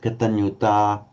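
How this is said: The final vowel is a long ah. "she pronounced it like a Northern Indian would"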